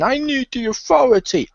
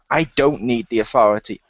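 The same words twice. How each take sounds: First: Whiny mock. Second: Said in the usual way. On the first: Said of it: "people who whine and complain". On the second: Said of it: "Seth Rollins comes to the ring and goes".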